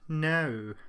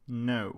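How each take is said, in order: First: It is said in a put-on British accent. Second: It is said in the speaker's plain accent.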